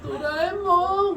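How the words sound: It is said in a whiny, very high voice.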